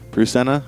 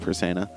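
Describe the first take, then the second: First: The name begins with a 'pru' sound. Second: The name begins with a 'per' sound. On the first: This is how others say the name. "I think they call call Persena like Pru Prusena" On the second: This is the speaker's own way of saying the name. "I call her Persena"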